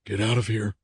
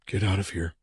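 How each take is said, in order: First: Strained, hoarse repeated order. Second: Soft, hushed order to leave; whispered warning. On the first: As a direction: force it out hoarsely. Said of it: "his voice hoarse and strained". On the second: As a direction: whisper it under your breath. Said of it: "the man whispered". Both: A narrator's reading.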